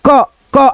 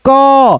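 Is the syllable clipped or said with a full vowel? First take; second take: clipped; full vowel. First: The consonant is clipped with little vowel sound. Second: The consonant is followed by a full vowel. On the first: The speaker calls it wrong. "ऐसे नहीं बोल करके" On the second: The speaker calls it right. "हम बोलेंगे क पूरा अच्छे से"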